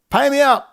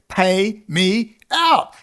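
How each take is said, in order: First: Higher, louder, clipped pay me out; angry demand. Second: Drawn-out, very slow pay me out; each word stretched with weary contempt; slow demand. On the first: Demanding payout from those he blames, angry shout. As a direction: bark the demand at them. Exhausted rant at his critics. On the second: Venting at those who pay others, slow contemptuous demand. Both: Real, not acted.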